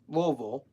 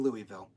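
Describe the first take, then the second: First: It is pronounced in a silly, exaggerated way. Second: It is pronounced differently from the local way. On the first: "I'll say it stupidly just to upset my family" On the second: "I don't say it right. I say Louisville"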